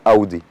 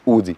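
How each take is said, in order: First: It is said with the German pronunciation. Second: It is said with the common local pronunciation. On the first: The speaker calls it right. "النطق الصح لاودي هو اودي" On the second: The speaker calls it wrong. "مش اودي"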